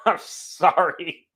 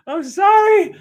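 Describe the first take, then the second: First: Slow, soft apology through laughter; laughing apology. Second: Very high, squeaky sorry; squealed apology. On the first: Host apologizing to listeners for ranting, laughing. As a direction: apologize while laughing, drawing it out. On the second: Host apologizing again to listeners, high squeal. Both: Real, not acted.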